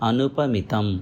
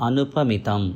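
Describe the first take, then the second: The two takes are said the same way.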